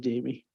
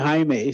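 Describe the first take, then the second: First: The name is pronounced the English way. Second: The name is pronounced the Spanish way. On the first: The speaker calls it right. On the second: The speaker calls it wrong.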